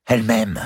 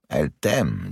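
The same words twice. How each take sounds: First: Higher, fervent declaration; impassioned insistence. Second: Measured echo. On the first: Nephew insisting to his uncle she loves him, fervent. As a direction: insist on it with a lover's certainty. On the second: Uncle echoing his nephew's claim, measured and doubtful. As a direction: hand the claim back, weighing it. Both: Acted.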